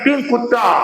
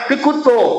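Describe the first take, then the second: First: It is said as two words ending in 'a'. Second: It is said as one word ending in 'o'. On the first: The speaker calls it wrong. "बोलते हैं" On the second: The speaker calls it right. "बोलना है"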